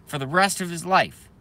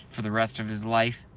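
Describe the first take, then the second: First: "rest" hit higher and harder; raised, indignant restatement with stress on "rest"; emphatic repeat. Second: Said in the usual way. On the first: Real, not acted.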